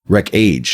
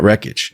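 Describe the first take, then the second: First: The second syllable sounds like the word age. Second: The second syllable is short and reduced. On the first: This is how the label's own people say it. "they pronounce it Wreck-Age" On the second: This is the ordinary way of saying the word. "Not Wreckage"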